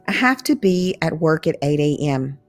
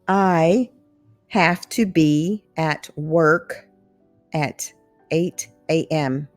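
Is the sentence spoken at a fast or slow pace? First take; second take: fast; slow. First: It is spoken at a natural, quicker speed. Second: It is spoken slowly and carefully.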